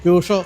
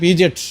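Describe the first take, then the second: First: The name is said like 'pyoo-sho'. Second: The name is said like 'pee-jet'. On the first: The speaker calls it right. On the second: The speaker calls it wrong.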